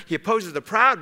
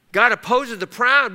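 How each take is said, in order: First: Said in the usual way. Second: "proud" hit high and louder; emphatic repeat. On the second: Shown as a demonstration. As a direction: punch the word "proud" on the repeat.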